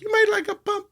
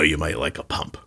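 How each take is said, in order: First: It is said in a feminine-sounding voice. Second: It is said in a masculine-sounding voice. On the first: A female doctor is speaking. "if it's a lady, she might be like" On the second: A male doctor is speaking. "the doctor says"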